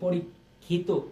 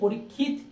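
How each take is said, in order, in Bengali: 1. শব্দটি 'o' স্বরধ্বনি দিয়ে শেষ হয়। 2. শব্দটি একটি খালি ব্যঞ্জনে শেষ হয়।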